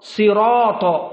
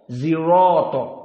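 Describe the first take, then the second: First: The word begins with an emphatic s sound. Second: The word begins with a z-like sound. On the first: This is the standard reading. "kalimat sirat dengan sod" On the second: This tribe could not pronounce the standard sound. "mereka tidak mampu kecuali zirato"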